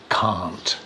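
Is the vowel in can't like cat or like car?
car. The vowel is long, like in car. "in British English, it's can and can't"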